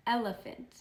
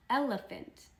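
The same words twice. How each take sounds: First: Said in the usual way. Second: Elephant said higher with a falling tune; modelling the word. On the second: Shown as a demonstration. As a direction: model elephant up high for the kids.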